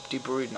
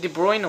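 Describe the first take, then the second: First: "De Bruyne" ending like "brood" or "broon"; "Bruyne" with a long OO; alternative pronunciation. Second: "De Bruyne" ending like "broyn"; "Bruyne" rhyming with "coin"; first pronunciation. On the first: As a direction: say "De Bruyne" with an OO vowel. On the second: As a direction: say "De Bruyne" with an OY vowel. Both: Shown as a demonstration. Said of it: "Is it De Bruyne or De Bruyne?".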